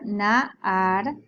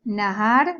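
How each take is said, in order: First: Nahar with the first a drawn out; Hebrew word repeated. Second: Nahar, short, with a slight rise; Hebrew word. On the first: Teacher repeating nahar, longer. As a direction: repeat nahar, stretching naa. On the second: Teacher modelling a vocabulary word. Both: Shown as a demonstration.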